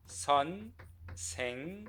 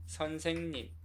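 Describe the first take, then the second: First: 선생님 in three separated syllables, 선, 생, 님. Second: Said in the usual way. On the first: Shown as a demonstration. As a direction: pause after each syllable of 선생님. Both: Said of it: "How many syllables?".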